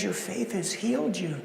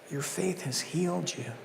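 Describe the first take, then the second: First: Soft and loving, well below the usual level; a gentle, loving word to the woman; lovingly. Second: Quiet tender take; hushed blessing. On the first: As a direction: say it like a tender blessing. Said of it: "he lovingly says". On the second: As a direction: let it fall quietly. Earlier soft take. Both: Acted.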